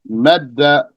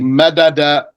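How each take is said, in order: First: The two d sounds merge into one doubled d. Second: The two d sounds are split by a vowel. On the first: The speaker calls it right. "you'd say madda" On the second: The speaker calls it wrong. "You don't say madada"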